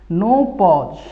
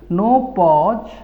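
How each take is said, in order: The two takes are said the same way.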